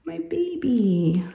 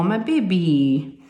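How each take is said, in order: First: Higher, slow drawn-out sigh of a lament; a mother's drawn-out wistful sigh. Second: Wistful. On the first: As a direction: mourn that she's growing up. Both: Real, not acted. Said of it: "I know it's sad".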